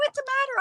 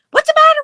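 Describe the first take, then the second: First: Worried repeat. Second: High, loud panicked cry; alarmed mother. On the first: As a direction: ask again, still high and anxious, voice dropping back. Mother repeats, still alarmed. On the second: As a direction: shout it like a frightened mother rushing out. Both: Retold or imitated.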